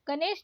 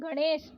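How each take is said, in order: First: गणेश with plain न; wrong dental N. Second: गणेश with curled-tongue ण; correct retroflex ण. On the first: Teacher showing learners the mistake, dental-N गणेश. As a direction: say गणेश as गनेश. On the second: Teacher correcting learners, retroflex गणेश. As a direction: curl back for ण in गणेश. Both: Shown as a demonstration. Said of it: "नहीं".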